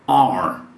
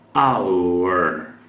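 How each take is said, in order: First: The word is reduced, sounding like "are". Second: The word is said fully, like "hour". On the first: "quando nativos falam rapidamente, você vai ouvir are" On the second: "como acabei de pronunciar, our"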